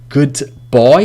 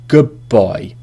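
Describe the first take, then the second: First: The d of 'good' is said clearly. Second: The d of 'good' turns into a b sound. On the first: "Good boy is pretty hard" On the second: "we say good boy ... almost two B sounds"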